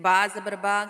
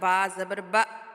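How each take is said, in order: First: The final syllable ends softly and smoothly. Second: The final syllable is cut off with a jerk. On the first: The speaker calls it right. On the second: The speaker calls it wrong.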